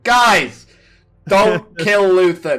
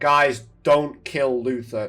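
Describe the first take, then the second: First: It is shouted loudly. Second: It is said at a normal speaking volume.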